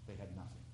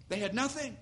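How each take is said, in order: First: Nothing said almost silently, much softer and lower; near whisper. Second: Nothing stressed on a higher pitch, falling; emphatic final repeat. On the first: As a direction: let the words fall to a hush. Repeated line, dropped to near whisper. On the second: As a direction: lift and land the word nothing. Repeated line, lifted higher. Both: Real, not acted.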